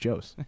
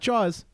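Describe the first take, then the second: First: The vowel is pronounced like 'oh' in 'go'. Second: The vowel is pronounced like 'aw' in 'saw'. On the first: The speaker calls it right. "It's Joe's" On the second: The speaker calls it wrong. "It's not Jaws"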